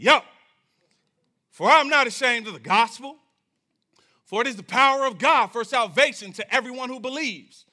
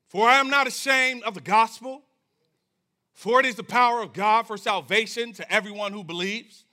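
First: It is read in a bold, confident way. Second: It is read in a plain, neutral way.

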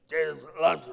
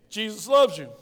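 First: It is said with an angry, frowning tone. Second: It is said with a warm, smiling tone.

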